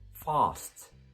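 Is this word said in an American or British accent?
British. The vowel is a back, open ah sound.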